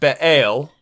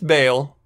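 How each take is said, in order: First: The word has a short break in the middle. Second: The word is said smoothly without a break. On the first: "there's like a uh, like a weird pause in there" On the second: "so his name's Baal"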